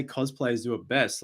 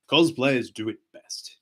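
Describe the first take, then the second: First: Said in the usual way. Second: Slow, half-hearted pirate attempt; Jack Sparrow. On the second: Struggling with fan's requested line, hesitant slow pirate impression. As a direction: lightly try a pirate voice, drawn out. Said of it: "that doesn't sound like Jack".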